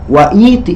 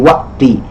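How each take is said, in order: First: It is said with no glottal stop after 'wa'. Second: A glottal stop is heard right after 'wa'. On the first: The speaker calls it wrong. "jadi tidak wa'iti enggak" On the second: The speaker calls it right. "tapi jadi waqti"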